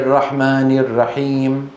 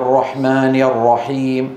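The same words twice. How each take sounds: First: The R sound is light and thin. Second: The R sound is heavy and full. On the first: The speaker calls it wrong. "لو قلت أنا" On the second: The speaker calls it right. "الراء يفخمون"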